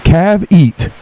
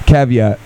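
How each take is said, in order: First: "Cav eat" split in two slow parts, CAV stressed; spelling it out. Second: "Caveat" said whole as KAV-ee-at; full word. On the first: Host sounding out the word of the day, slow. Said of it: "C A V". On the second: Host giving the word of the day, said whole. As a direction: say "Caveat" smoothly in one go. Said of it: "C A V E A T". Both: Shown as a demonstration.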